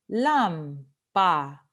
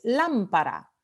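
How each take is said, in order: First: "lámpara" slowly split into LÁM, pa, ra; syllable by syllable. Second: Said in the usual way. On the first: Shown as a demonstration. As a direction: sound out "lámpara" slowly, stressing the first beat LÁM. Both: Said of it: "antepenúltima sílaba".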